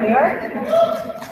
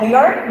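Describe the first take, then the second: First: Higher, drawn-out rising New York; a wistful, higher New York with a rise; awed dreamy echo. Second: Said in the usual way. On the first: Acted. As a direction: breathe New York like a dream come true. Dreamy echo of city name.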